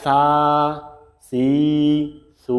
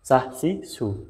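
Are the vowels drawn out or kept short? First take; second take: drawn out; short. First: The vowels are drawn out long. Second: The vowels are kept short. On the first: The speaker calls it wrong. "এখানে টান দেওয়া যাবে না, সা সি সু, তাহলে ভুল" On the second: The speaker calls it right. "তাড়াতাড়ি পড়তে হবে"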